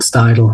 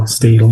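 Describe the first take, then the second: First: Steidel with first vowel as in "sty"; Steidel, first syllable rhyming with "eye"; Steidel said "STY-dul". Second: Steidel with first vowel as in "steel"; Steidel, first syllable rhyming with "see"; Steidel said "STEE-dul". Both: Shown as a demonstration. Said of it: "Steidel, whatever".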